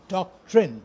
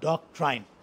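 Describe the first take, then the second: First: The word is said the standard English way. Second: The word is said the common local way. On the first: The speaker calls it right. "the correct pronunciation is doctrine" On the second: The speaker calls it wrong. "not doctrine"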